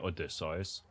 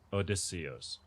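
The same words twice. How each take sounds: First: It is said with a German pronunciation. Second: It is said the English way, each part stressed. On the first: "In German, we say Odysseus" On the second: "They over accentuate each"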